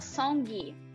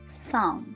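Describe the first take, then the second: First: It ends with an audible released g sound. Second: It ends without any released g sound. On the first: The speaker calls it wrong. "Tá vendo que ela coloca um gui?" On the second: The speaker calls it right. "como se fosse, por exemplo, amendoim"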